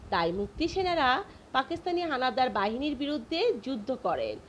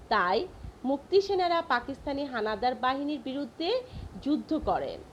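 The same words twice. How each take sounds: The two takes are said the same way.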